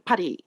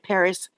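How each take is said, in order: First: It is pronounced the Japanese way. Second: It is pronounced the English way. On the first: "in Japanese it's pa- Paris" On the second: "in English we say Paris"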